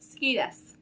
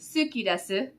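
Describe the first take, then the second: First: The u after the s is dropped. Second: The u after the s is clearly pronounced. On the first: "you say ski desu" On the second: "Instead of saying suki desu"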